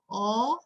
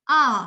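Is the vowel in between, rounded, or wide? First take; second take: rounded; in between. First: The vowel is said with strongly rounded lips. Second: The vowel is said between rounded and wide. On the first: The speaker calls it wrong. "A-nya itu bulat, kayak bulat tapi terlalu ekstrim" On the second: The speaker calls it right. "Yang kita mau adalah yang di tengah-tengah"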